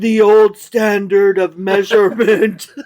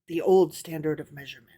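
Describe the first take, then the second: First: The phrase is read a little louder. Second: The phrase is read quietly, like an aside. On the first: The speaker calls it right. "You got to do your parentheses voice a little louder" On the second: The speaker calls it wrong. "Parentheses voice"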